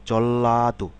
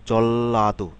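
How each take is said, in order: Both takes have the same delivery.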